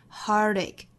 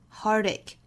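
The two takes are said the same way.

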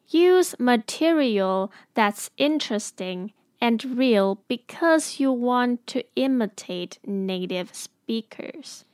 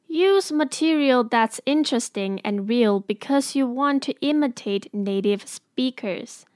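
First: It is said a little more slowly. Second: It is said at normal speed.

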